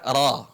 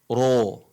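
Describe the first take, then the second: First: The vowel is an a leaning toward o. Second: The vowel is a full, round o sound. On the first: The speaker calls it right. "dibaca ra" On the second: The speaker calls it wrong. "bukan dibaca ro"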